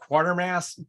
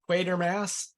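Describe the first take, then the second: First: The first syllable sounds like 'kwah'. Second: The first syllable sounds like 'kway'. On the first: This is how American English would read the spelling. "always sounds like qua to me, not quay" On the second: This is how the film pronounces the name. "I know they say Quatermass"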